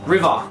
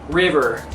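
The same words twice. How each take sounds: First: The word ends in an open 'ah' sound. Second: The word ends in an 'er' sound with R. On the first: "Instead of uh, we kind of say ah, river" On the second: "That's probably like the worst American accent"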